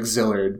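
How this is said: The name is said as in the English dub. "in the dub, it's like Zillard"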